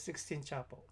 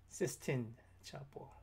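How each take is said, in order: First: The first word sounds like 'sixteen'. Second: The first word sounds like 'sistine'. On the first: The speaker calls it wrong. "not sixteen" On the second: The speaker calls it right.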